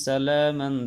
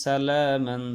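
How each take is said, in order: Both takes have the same delivery.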